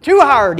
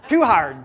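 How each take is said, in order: First: Put-on loud, high whine of a toddler giving up; whiny toddler. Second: Laughing repeat. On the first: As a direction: belt "Too hard" like a fed-up toddler. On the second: Retold or imitated. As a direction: repeat the toddler's words while chuckling. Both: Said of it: "he says".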